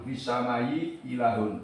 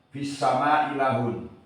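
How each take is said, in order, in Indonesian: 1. Hamzah pertama dilunakkan menjadi y. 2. Hamzah pertama dihilangkan sama sekali. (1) "membaca tasil al-ula" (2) "menggugurkan hamzah yang pertama"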